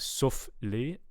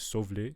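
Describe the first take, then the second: First: The final consonant of the first word is voiceless. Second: The final consonant of the first word is voiced. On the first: "f is voiceless" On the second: "voice that and turn it into sauve les"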